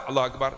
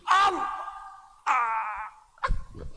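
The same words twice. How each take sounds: First: Said in the usual way. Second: Repeated takbir shout. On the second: Retold or imitated. Preacher imitating a Malay worshipper's anxious repeated takbir, shouted. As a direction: shout it like someone redoing the takbir. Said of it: "Orang Melayu nak qasad".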